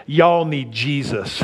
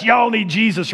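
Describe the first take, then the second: First: Slow, drawn-out y'all; T-shirt slogan. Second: Said in the usual way. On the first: Retold or imitated. Pastor reading his son-in-law's T-shirt, slow and deliberate. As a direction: read Y'all need Jesus slowly, leaning on Y'all. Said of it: "It says". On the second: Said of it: "But yes".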